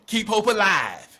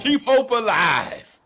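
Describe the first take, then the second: First: Raised, loud slogan; loud quoted catchphrase; rallying slogan. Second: Slow, high, booming slogan; louder, stretched-out catchphrase; drawn-out rallying cry. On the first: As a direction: call it out like a rallying cry. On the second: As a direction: belt it out slowly like a rally chant. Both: Acted.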